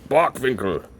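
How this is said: The name is said with a German pronunciation.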